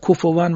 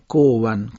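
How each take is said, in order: First: The middle consonant is a clear, breathy f. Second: The middle consonant sounds like a w. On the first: The speaker calls it right. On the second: The speaker calls it wrong.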